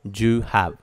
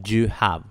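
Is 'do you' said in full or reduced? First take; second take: reduced; reduced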